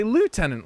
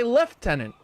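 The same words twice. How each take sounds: First: "lieutenant" said loo-TEN-ant, American style; "lieutenant" the way the States say it. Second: "lieutenant" said lef-TEN-ant, British style; "lieutenant" the way the Brits say it. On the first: Comparing American and British "lieutenant", American way. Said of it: "here in the States, we say lieutenant". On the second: Comparing American and British "lieutenant", British way. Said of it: "the Brits say lieutenant". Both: Shown as a demonstration.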